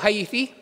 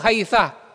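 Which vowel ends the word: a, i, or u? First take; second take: i; a. First: The word ends in an i vowel. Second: The word ends in an a vowel. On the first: Other Arabs say it this way. "yaqulu haythi fa yabniha alal kasri" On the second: Some Arabs say it this way. "ang pronunciation nila nito haytha"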